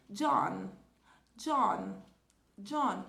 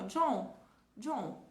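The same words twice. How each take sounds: First: "John" com N final completo, língua fechando; "John" concluído com N bem pronunciado; English John. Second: "John" dito "Jô", nasalizado, sem N final; "John" terminando em vogal nasal; Brazilian nasal John. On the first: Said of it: "se aproxima mais disso aqui". ("John" em inglês, N final articulado) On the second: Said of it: "em português a gente fala assim". ("John" à brasileira, sem fechar o N) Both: Shown as a demonstration.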